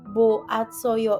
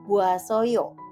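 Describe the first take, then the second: First: The vowels stay apart in separate syllables. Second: The vowels merge quickly into one glide. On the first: The speaker calls it wrong. "ketika kalian mengucapkan si kata boatsoyo" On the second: The speaker calls it right. "ketika kalian lebih cepat ngomongnya menjadi buasoyo"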